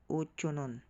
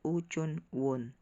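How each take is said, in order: First: No w sound begins the last syllable. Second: A w sound begins the last syllable. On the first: The speaker calls it right. "laging silent W" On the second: The speaker calls it wrong. "Hindi siya Uchonwon"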